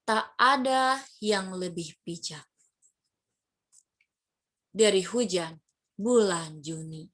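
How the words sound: It is read with rising and falling pitch.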